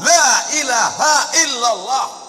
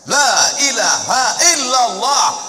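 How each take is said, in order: The two takes are said the same way.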